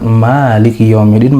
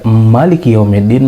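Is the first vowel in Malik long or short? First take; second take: long; short. First: The first vowel of Malik is held long. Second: The first vowel of Malik is kept short. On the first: It means the owner, from the word for ownership. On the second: It means the ruler, from the word for dominion.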